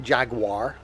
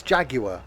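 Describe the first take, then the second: First: Jaguar in two syllables, "JAG-wahr"; wrong American pronunciation. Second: Jaguar in three syllables, "JAG-you-uh"; British pronunciation. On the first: Retold or imitated. Correcting Americans, Jaguar mispronounced as "jag-war". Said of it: "It's not Jaguar". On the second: Shown as a demonstration. Correcting Americans, Jaguar said the British way. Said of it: "No, it's Jaguar".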